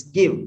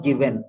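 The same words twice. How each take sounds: First: "give" said "GIV-n"; weak second syllable. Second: "given" said "gi-VEN"; wrong full vowel. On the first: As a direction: run V straight into N after "give". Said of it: "it's give". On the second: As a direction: give "given" a full E in its second syllable. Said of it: "it's not given". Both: Shown as a demonstration.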